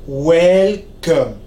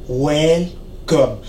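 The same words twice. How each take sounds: No difference in how they are said.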